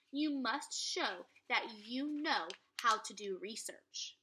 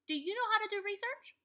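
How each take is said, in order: First: Whisper. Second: Excited question. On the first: A narrator's reading. Morgan whispers the task. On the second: Real, not acted. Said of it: "Second graders".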